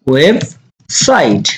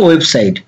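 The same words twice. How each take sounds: First: "website" split slowly into web, pause, site; syllable by syllable. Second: Said in the usual way. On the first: Shown as a demonstration. Teacher showing learners the word, syllable by syllable. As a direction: break "website" into two slow, separate parts.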